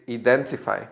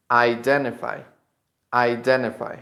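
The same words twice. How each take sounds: First: "identify" starting with ee, ee-DEN-ti-fy; mistaken first vowel. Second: "identify" starting with eye, eye-DEN-ti-fy; correct first vowel. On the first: Teacher shows Spanish speakers' mistake, "identify" as ee-dentify. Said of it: "the mistake is that some people say". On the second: Teacher gives the correct pronunciation, "identify" as eye-dentify. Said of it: "the correct pronunciation of this verb is". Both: Shown as a demonstration.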